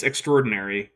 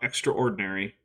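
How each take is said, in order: First: Extraordinary said "ek-STROR-dinary"; extraordinary with the middle a dropped; usual pronunciation. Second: Extraordinary said "EX-tra OR-dinary"; extraordinary with every part pronounced, as spelled; overpronounced. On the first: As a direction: run extra and ordinary together in extraordinary. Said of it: "it's pronounced extraordinary". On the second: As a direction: split extraordinary into extra and ordinary. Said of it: "not extraordinary". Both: Shown as a demonstration.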